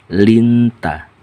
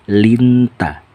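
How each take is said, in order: Both takes have the same delivery.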